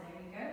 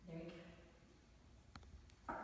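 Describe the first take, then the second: First: Said in the usual way. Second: Slow soft unvoiced whisper. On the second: Real, not acted. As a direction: breathe it out as a whisper. Encouraging patient during tongue test.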